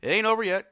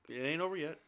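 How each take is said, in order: First: Higher and louder, pumped up; a fan trying to hype the team; hyped rally cry. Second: Softer, altered voice; a muted mock echo; hint of a put-on voice. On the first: Pretend. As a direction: shout it like a rallying coach. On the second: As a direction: repeat it in a lightly voiced different character. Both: Repeated rallying line.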